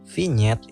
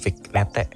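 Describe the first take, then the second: First: The word ends with a 'nyet' sound. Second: The word ends without a 'nyet' sound. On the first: The speaker calls it right. "ya emang begitulah dibacanya" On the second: The speaker calls it wrong. "bukan vignette"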